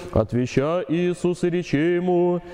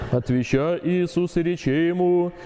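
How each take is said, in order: The two takes are said the same way.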